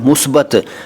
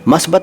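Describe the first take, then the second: First: The first vowel is 'u', as in musbat. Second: The first vowel is 'a', as in masbat. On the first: The speaker calls it right. "सही शब्द है मुस्बत" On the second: The speaker calls it wrong. "मस्बत शब्द गलत है"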